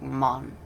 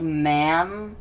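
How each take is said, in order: First: A light African accent on "mon"; mildly imitated African accent. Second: Man drawn out slowly and loudly; man, slow and emphatic, as in English; comparison word. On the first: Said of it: "like, an African accent". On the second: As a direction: stretch man with its ordinary flat A vowel. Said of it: "kinda like man". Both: Shown as a demonstration.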